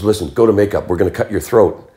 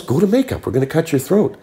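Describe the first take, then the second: First: Said in the usual way. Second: Much higher-pitched retold insistence; insistent repeat. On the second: Director repeating himself to a startled actor, high insistent delivery. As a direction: repeat the order emphatically, voice pitched right up.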